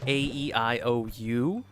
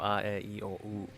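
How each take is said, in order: First: The vowels are said as English letter names. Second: The vowels are said as short pure vowels.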